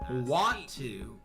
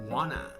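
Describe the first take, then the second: First: Both words are said fully and separately. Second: The words are blended into one short reduced word.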